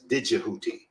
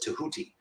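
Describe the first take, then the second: First: The name begins with a DJ sound. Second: The name begins with a plain T sound. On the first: "some people pronounce it as Djibouti, uh, de, uh, with a D J rather than just T E H" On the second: "I prefer to pronounce it as Tahuti"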